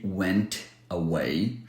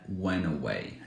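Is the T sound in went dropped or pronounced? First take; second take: pronounced; dropped. First: The T sound in went is pronounced. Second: The T sound in went is dropped. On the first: The speaker calls it wrong. "she didn't say went away" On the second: The speaker calls it right. "She said went away, no T"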